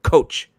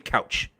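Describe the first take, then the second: First: It is said in a Nova Scotian accent. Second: It is said in the speaker's usual accent. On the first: "That's how they say it" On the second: "we say couch"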